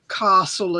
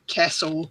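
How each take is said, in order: First: It is said in a South Australian accent. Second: It is said in a general Australian accent.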